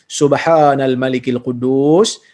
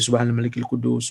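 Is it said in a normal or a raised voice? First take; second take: raised; normal. First: It is said in a slightly raised voice. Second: It is said in a normal voice.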